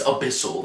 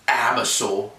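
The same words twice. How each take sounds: First: "abyssal" stressed on the second syllable, uh-BISS-ul; corrected abyssal. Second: "abyssal" stressed on the first syllable, AB-uh-sul; mispronounced abyssal. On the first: Host accepts the correction, "abyssal" said as uh-BISS-ul. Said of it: "it's abyssal then". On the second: Host describes the guitar tone, "abyssal" said as AB-uh-sul. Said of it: "like, pronounce it". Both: Real, not acted.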